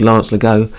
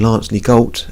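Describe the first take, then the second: First: The surname is not said as spelled. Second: The surname is said as it is spelled. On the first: The speaker calls it right. "but it was Lance Legault" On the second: The speaker calls it wrong. "His name was written Lance Legault, and often people would say it that way"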